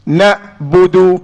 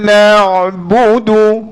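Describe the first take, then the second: First: The syllable ends in a hard, clipped stop. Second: The syllable ends in a soft throat sound. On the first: The speaker calls it wrong. "Tak betul" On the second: The speaker calls it right. "Ada lunak pada huruf ain"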